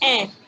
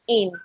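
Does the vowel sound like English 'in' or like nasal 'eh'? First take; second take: nasal eh; English in. First: The vowel sounds like a nasal 'eh'. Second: The vowel sounds like English 'in'. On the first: The speaker calls it right. "you pronounce it in, ... It's to sound like eh" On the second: The speaker calls it wrong. "not in ... the sound is not like English in"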